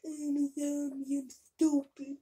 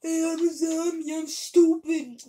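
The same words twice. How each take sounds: First: Lightly voiced dumb zombie; slow, dopey zombie drawl. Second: Zombie voice. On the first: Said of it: "what a zombie sounds like". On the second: Pretend. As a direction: bellow it like a dumb zombie. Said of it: "my definition of you".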